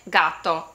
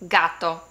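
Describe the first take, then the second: No difference in how they are said.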